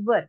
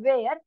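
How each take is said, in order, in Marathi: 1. स्वर 'her' मधल्यासारखा वाटतो. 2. स्वर 'air' मधल्यासारखा वाटतो. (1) "it is actually प्रोनाउन्स्ड as वर" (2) "it is not वेअर"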